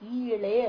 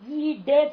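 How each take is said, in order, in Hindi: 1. बीच का व्यंजन l जैसी ध्वनि है। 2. बीच का व्यंजन d जैसी ध्वनि है। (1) "ई ले हो गया" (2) "ई डे था वो ड को उच्चारण गया ल"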